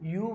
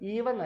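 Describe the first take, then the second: First: It is said as one syllable, 'yoo'. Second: It is said as two syllables, 'ee-ven'. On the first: The speaker calls it right. "Correct pronunciation യു ആണ്" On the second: The speaker calls it wrong. "ഈവൻ അല്ല"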